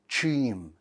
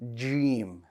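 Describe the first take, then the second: First: It begins with a breathy CH sound. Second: It begins with a light J sound. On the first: The speaker calls it wrong. "if you add air to this letter, it's going to turn to a C H sound" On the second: The speaker calls it right. "So we want that sound"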